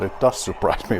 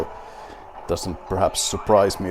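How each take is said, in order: First: "does" stressed to correct "doesn't". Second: Said in the usual way. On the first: Real, not acted. Player correcting himself about winning, stress on "does". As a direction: lean on "does", reversing the statement. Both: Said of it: "well, it does surprise me".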